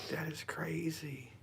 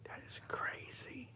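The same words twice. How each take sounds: First: Slow hushed whisper, amazed. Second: Slow awed whisper. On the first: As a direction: whisper it again, still stunned. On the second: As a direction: breathe it, stunned and hushed. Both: Real, not acted. Staring at shadow in dark.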